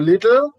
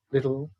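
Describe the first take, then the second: First: LITTLE loud and rising, T clearly released; crisp British T. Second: LITTLE low and soft, T flattened; flat T. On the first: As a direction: hit the T in "little". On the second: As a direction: drop the weight off the T in "little". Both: Shown as a demonstration. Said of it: "those are the differences".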